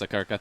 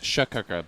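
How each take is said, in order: First: The name begins with an s sound. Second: The name begins with an sh sound. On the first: The speaker calls it right. "but apparently it's Sakirka" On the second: The speaker calls it wrong. "I thought it was Shakirka"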